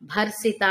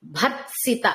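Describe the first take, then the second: First: భర్సిత said without the త, just bhar-sita; wrong pronunciation. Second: భర్త్సిత with r, t and s all clearly sounded; correct pronunciation. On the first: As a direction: drop the t sound in భర్సిత. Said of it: "అని వినిపించకూడదు". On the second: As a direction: say భర్త్సిత as bhar-t-sita, every consonant heard. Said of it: "ర, త, స మూడు వినిపించాలండి". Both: Shown as a demonstration.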